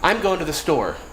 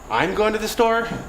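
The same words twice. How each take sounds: First: The voice falls at the end. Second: The voice rises at the end. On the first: It plainly states a plan. "So I said" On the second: It questions or doubts the plan. "now I've changed the meaning of the word based on my intonation"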